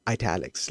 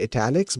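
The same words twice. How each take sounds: First: ITALICS said "eye-TAL-ics"; italics with long I. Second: ITALICS said "ih-TAL-ics"; italics with short I. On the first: Coder settling on one way either way, eye-TAL-ics pronunciation. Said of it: "let's just go with that". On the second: Coder recalling what we used to say, ih-TAL-ics pronunciation. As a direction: say "italics" starting like "it". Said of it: "we just used to say". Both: Shown as a demonstration.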